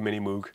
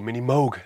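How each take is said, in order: First: Moog is said the speaker's own non-American way. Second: Moog is said the American way.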